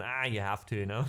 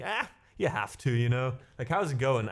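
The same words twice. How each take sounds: First: Said in the usual way. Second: "Ah" thrown up high, then eased down; a hammed-up high sigh opening the typical German reply; a mock German shrug tossed off high and lively; exaggerated German shrug. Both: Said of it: "that's very typical German".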